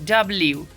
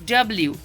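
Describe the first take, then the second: The two takes are said the same way.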